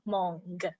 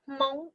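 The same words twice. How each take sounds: First: The word ends with an audible g sound. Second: The word ends without an audible g sound. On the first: The speaker calls it wrong. "and not Hmong" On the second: The speaker calls it right. "hence why I said Hmong"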